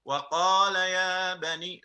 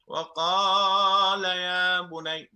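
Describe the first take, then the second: First: The long vowel in qaala has normal length. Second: The long vowel in qaala is stretched out. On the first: The speaker calls it right. "There is no med, so we don't elongate it" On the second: The speaker calls it wrong. "unnecessary med"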